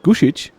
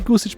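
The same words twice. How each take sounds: First: The middle consonant is a sh sound. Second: The middle consonant is a plain s sound. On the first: "isn't it Gusic? ... I pronounce this as a sh" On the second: "I always say Gusic"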